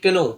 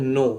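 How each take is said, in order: First: The k sound is pronounced before the n. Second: The k is silent; it starts with n. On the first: The speaker calls it wrong. "पढ़ना तो चाहिए केनो" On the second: The speaker calls it right. "मगर पढ़ते हैं नो"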